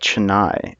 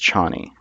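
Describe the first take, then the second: First: The name sounds like the city Chennai. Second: The name is said as spelled, Chani. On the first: This is how the film says it. "I think they pronounce it like Chennai" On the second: This is how the speaker expected it from the spelling. "but I think it is Chani"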